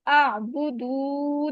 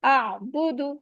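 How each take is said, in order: First: The final vowel is stretched out long. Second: The final vowel is held for one short count. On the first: The speaker calls it wrong. "इसको हम आ बुदू नहीं कर सकते। ठीक है, इसको हमने स्ट्रेच नहीं करना" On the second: The speaker calls it right. "अब ये वन वन काउंट है"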